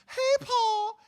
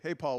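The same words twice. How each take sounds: First: It is said at a raised, higher pitch. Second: It is said at a normal speaking pitch. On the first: This is how one talks to animals. "It's always higher pitch" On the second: This is how one talks to adults. "we don't say"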